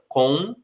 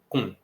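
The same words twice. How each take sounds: First: The word is said in its full careful form. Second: The word is said in a weak reduced form. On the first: This is not how people say it in normal speech. "não pronunciam a palavra com dessa maneira" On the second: This is how people say it in normal speech. "no ritmo normal... elas vão dizer com"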